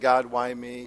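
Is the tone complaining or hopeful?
complaining. Said in a complaining, self-pitying tone. The hardship is unfair. The speaker calls it wrong. "instead of saying"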